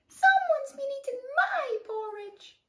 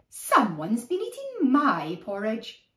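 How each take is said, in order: First: It is said in a high squeaky voice. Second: It is said in a plain, ordinary voice.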